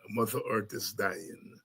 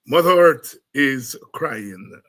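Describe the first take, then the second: First: Soft echo. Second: Loud, slow. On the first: Echoing the title softly. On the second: Quoting the song title. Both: Real, not acted.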